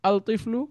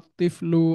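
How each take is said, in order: First: The l is clearly heard before the t. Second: The l merges into a doubled t sound. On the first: The speaker calls it wrong. "বলি না" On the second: The speaker calls it right. "তাসদিদ দিয়ে দিই"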